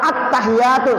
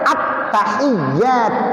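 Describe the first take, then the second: First: The y sound is short and single. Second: The y sound is held and doubled. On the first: The speaker calls it wrong. "Ya-nya kagak ada sabdunya. ... salah" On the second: The speaker calls it right. "Yang benar at-tahiyat, ada sabdu"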